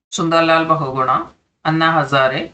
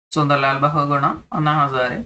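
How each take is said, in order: The two takes are said the same way.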